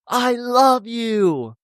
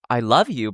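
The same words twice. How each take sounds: First: It is said intensely, with strong passion. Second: It is said lightly, without much intensity. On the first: The feeling is overwhelming and total. "but I'm not like" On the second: The feeling is real but not all-consuming. "I personally didn't feel that intense passion. I was like"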